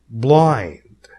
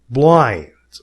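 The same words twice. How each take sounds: No difference in how they are said.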